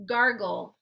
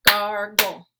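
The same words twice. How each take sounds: First: Said in the usual way. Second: "Gargle" in two loud, separate beats; syllable by syllable. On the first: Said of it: "I'll say the word". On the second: Shown as a demonstration. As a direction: hit each syllable of "Gargle" hard. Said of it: "clap the syllables out".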